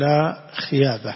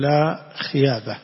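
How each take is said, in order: First: The second word is said with a Y sound. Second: The same.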